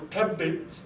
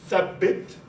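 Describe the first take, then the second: First: It begins with a hard t sound. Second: It begins with a soft th sound. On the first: This form marks a social class. "tha goes into a plosive ta" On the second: This is the standard formal form. "in modern standard Arabic, it's thabbit"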